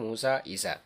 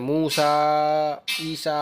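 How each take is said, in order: First: The final vowels are kept short and normal. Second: The final vowels are drawn out long. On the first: The speaker calls it right. "नॉर्मल बोलते हैं" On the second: The speaker calls it wrong. "उसको खींच के नहीं पढ़ते, मूसा ईसा ऐसा नहीं बोलते हैं"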